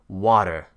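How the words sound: The middle consonant sounds like a soft D. "an American would say water, with a duh"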